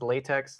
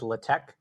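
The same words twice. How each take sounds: First: It ends with a ks sound. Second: It ends with a plain k sound. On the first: It sounds like the rubber material. "like the material" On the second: It is the lazy everyday version. "the way I pronounce it"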